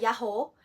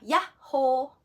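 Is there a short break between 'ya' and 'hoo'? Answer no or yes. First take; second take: no; yes. First: The word is said smoothly with no break. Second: A short break separates 'ya' from 'hoo'. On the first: The speaker calls it wrong. "hindi siya yahoo" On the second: The speaker calls it right. "Medyo may konting pagitan yung ya at saka yung ho"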